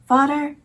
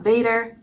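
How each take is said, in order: First: It sounds like 'fodder', with an f-like start. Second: It starts with v and rhymes with 'trader'. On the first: The speaker calls it right. "Vader is spelled like father in Dutch, but it's not pronounced the same" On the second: The speaker calls it wrong. "and not Vader"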